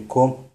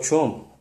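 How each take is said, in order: First: «ком» opening on hard «к»; hard-sound variant. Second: «чом» opening on soft «ч», higher; soft-sound variant. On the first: Teacher shows other form of the word, hard «к» in «ком». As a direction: say «ком» with «к» instead of «ч». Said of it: "или же". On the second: Teacher shows one form of the word, soft «ч» in «чом». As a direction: say «чом» with «ч» instead of «к». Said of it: "Из-за неточного подбора этих звук". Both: Shown as a demonstration.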